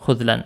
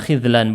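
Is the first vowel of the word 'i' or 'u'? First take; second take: u; i. First: The first vowel is a 'u' sound. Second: The first vowel is an 'i' sound. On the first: This is the reading commonly heard from speakers. The speaker calls it wrong. "bukan khudlan" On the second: This is the dictionary's reading. The speaker calls it right. "kalau di Mu'jam Al-Ghani bacanya khidlan"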